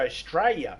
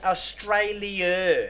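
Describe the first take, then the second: First: The word is clipped, sounding like 'Straya'. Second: The word is said with all its syllables. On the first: This is how most locals say it. "most of us don't even say the ah. We just go Australia. We say it as if it's spelt with an S and has a Y" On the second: This is how most people elsewhere say it. "Most people say it's called Australia"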